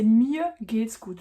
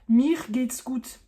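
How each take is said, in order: First: The R in 'mir' sounds almost like 'a'. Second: The R in 'mir' is a strong consonant. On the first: The speaker calls it right. "Le R sonne presque comme un A" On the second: The speaker calls it wrong. "un peu à la française avec le R qui sonne fort"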